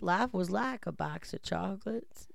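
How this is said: It is said imitating Forrest Gump's voice.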